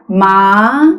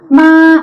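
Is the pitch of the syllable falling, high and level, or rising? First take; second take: rising; high level. First: The pitch rises from mid to high. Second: The pitch stays high and level. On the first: "이성의 경우는 레 또는 미 정도에서부터 솔까지 올라가게 되죠" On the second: "일성의 경우는 도레미파솔에 해당되죠. 그래서 마 이렇게 고음으로 시작되고요"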